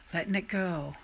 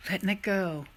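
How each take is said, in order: Both takes have the same delivery.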